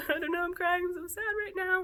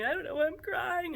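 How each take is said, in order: First: Pitched way up in a whiny fake cry; hammed-up crying voice, not real tears; mock teary whine. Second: High, whiny put-on crying voice; a hammed-up sob-story whimper; mock teary whine. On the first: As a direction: overplay the weepy self for a laugh. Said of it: "It's kind of funny". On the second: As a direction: play a weepy, confused self, half in jest. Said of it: "and I do that too".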